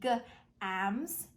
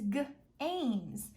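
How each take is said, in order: First: The vowel is a short 'ah' sound. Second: The vowel is a long 'ay' sound. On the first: The speaker calls it wrong. "It doesn't say g, ams" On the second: The speaker calls it right. "It says g, ames, games"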